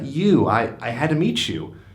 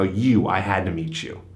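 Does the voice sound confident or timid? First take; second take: timid; confident. First: It is hesitant and timid, with stumbling words. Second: It is confident and dominant, said with a smile. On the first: The speaker is unsure about approaching. The speaker calls it wrong. "This is not something for the uh, timid" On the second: The speaker urgently had to meet her. The speaker calls it right. "deliver the line like I'm saying right now"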